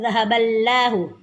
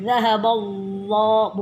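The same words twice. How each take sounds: First: The L in Allah is light and thin. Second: The L in Allah is heavy and dark. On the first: The speaker calls it wrong. "bukan zahaballahu, tidak boleh" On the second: The speaker calls it right. "lafal Allah harus dibaca tebal"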